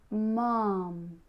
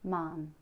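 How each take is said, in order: First: It is projected loudly with an open mouth. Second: It is said quietly with a closed mouth.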